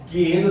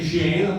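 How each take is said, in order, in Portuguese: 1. A palavra começa com o G de gato. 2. A palavra começa com o J de janela. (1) "teria que ser G de gato" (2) "No nosso português teria que ser Geena"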